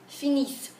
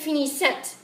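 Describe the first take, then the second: First: The final -ent ending is silent. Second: The final -ent ending is pronounced aloud. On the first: The speaker calls it right. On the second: The speaker calls it wrong.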